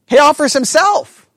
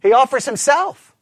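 First: "himself" pushed higher and louder with a rise; emphatic repeat. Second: Said in the usual way. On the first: Shown as a demonstration. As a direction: lean hard on "himself" the second time.

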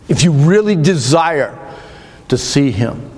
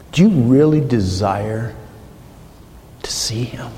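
First: Said in the usual way. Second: Whispered challenge. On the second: Acted. Preacher asking the congregation their desire, whispered. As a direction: ask it, then whisper to see him.

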